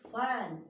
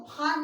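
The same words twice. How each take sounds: First: फैन with an open "ae" vowel, as in English fan; teacher's model फैन, vowel "ae"; correct short-A vowel. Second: फान with a long "aa" in place of "ae"; wrong long-AA reading. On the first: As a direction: say फैन with "ae", not "aa". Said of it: "आए से पढ़ेंगे". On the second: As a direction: misread it as फान, rhyming with "kaan". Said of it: "इसको फान नहीं पढ़ेंगे". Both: Shown as a demonstration.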